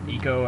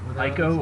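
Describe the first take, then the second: First: The first vowel sounds like 'ee'. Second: The first vowel sounds like 'eye'. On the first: "I think is the proper way to pronounce it" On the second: "I pronounce it Ico because that's kind of what I did for the longest time"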